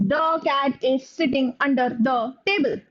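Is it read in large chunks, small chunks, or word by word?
word by word. A pause follows every single word. "there can be somebody who reads it like this"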